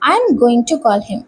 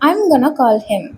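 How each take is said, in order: First: 'Going to' is said as two full words. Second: 'Going to' is squeezed into 'gonna'.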